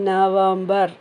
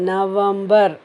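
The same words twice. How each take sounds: The two takes are said the same way.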